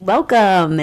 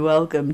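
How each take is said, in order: First: It is said lively, like a big announcer. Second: It is said flat, with little pitch movement. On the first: The speaker calls it right. "like a radio voice or like an announcer voice" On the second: The speaker calls it wrong. "not hello and welcome to"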